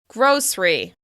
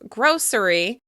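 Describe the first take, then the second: First: The word is said with two syllables. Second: The word is said with three syllables. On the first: "some people say just two" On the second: "some people pronounce this with three syllables"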